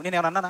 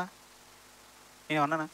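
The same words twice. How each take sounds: First: Said in the usual way. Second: Slow, much softer broken repeat of నేనేమన్నా అన్నానా; grieving repeat. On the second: Acted. David hunted in the hills asking why, slow soft anguish. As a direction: let the question fade out in grief. Preacher voices David's lament.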